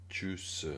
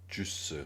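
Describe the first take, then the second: No difference in how they are said.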